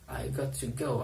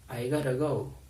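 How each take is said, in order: First: Both words 'got to' are said fully and separately. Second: 'Got to' blends into 'gotta' with a D-like sound. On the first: "Notice that I'm not saying I got to go" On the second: "I'm almost saying it with a D sound"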